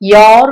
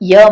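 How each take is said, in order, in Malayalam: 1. ഈ വാക്കിൽ പൂർണവും ദീർഘവുമായ സ്വരമുണ്ട്. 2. ഈ വാക്കിൽ ഹ്രസ്വവും ചുരുങ്ങിയതുമായ സ്വരമുണ്ട്. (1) "യോർ വേണ്ട" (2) "യ മതി"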